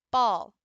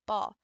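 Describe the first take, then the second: First: "Ball" said loud as one firm beat; loud single beat. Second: Said in the usual way. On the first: Shown as a demonstration. Teacher showing a one-syllable tap, loud. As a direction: hit "Ball" hard once. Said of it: "There's the three".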